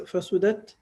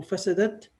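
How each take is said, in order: First: فسدت as fasudat, middle vowel u; alternative verb form. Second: فسدت as fasadat, middle vowel a; alternative verb form. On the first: Teacher quoting the hadith, فسدت with middle u. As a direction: pronounce فسدت "fa-SU-dat". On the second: Teacher quoting the hadith, فسدت with middle a. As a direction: pronounce فسدت "fa-SA-dat". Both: Shown as a demonstration. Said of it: "So it could be pronounced as".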